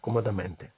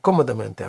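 First: The stress is on a later syllable. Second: The stress is on the first syllable. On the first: This is a common nonstandard form. The speaker calls it wrong. "а комодаменте. Але це відхилення від норми" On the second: This is the standard form. The speaker calls it right. "не комодаменте"

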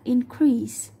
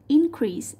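First: The stress is on the second syllable. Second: The stress is on the first syllable. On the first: It is used as a verb. The speaker calls it right. "chúng ta sẽ đánh trọng âm vào âm thứ hai" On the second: It is used as a noun. The speaker calls it wrong. "Thay vì đọc là increase như câu 3"

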